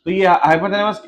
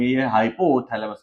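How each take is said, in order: First: Said in the usual way. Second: hypothalamus drawn out syllable by syllable, lower; slow spelled-out term. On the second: Shown as a demonstration. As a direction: dictate hypothalamus slowly while writing it. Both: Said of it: "ये लिख देता हूँ".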